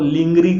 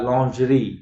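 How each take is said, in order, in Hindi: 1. यह शब्द 'ling' की आवाज़ से शुरू होता है। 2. यह शब्द 'lon' की आवाज़ से शुरू होता है। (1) "लिंगरी वगैरह नहीं होता" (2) "लॉन्जरी होता है"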